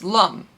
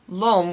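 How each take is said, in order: First: The word is said with a short 'um' vowel. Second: The word is said with a long 'ohm' vowel. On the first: The speaker calls it right. "which I recently learned was Lum" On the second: The speaker calls it wrong. "which I've always said"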